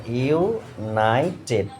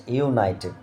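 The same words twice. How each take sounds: First: ইউনাইটেড split into three slow parts, ইউ, নাই, টেড; syllable by syllable. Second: Said in the usual way. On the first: Shown as a demonstration. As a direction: break ইউনাইটেড into ইউ-নাই-টেড with small gaps. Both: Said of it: "তিনটে syllable".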